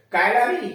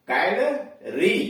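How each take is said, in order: First: Said in the usual way. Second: calorie slowly split, with a gap before री; syllable by syllable. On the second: Shown as a demonstration. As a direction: break calorie into कैल, then री. Word then broken into syllables. (Calorie को धीरे-धीरे तोड़कर बोलें)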